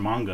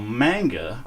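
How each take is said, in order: First: It is said with a Japanese-style pronunciation. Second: It is said with an English pronunciation.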